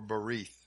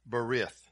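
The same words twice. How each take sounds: First: The second vowel is a long ee sound. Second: The second vowel is a short i sound. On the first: The speaker calls it right. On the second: The speaker calls it wrong.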